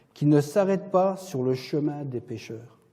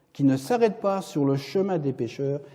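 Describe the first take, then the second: The two takes are said the same way.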